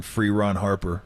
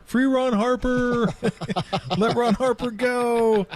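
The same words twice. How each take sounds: First: Said in the usual way. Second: High, slow mock chant. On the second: Teammates chanting to free Ron Harper, high slow chant. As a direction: chant it high and drawn out like a crowd. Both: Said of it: "we were all chanting".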